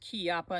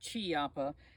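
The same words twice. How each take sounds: First: The name begins with a hard k sound. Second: The name begins with a soft ch sound. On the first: The speaker calls it right. "it is Chiappa" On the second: The speaker calls it wrong. "not Chiappa"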